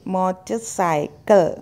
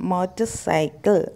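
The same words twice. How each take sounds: No difference in how they are said.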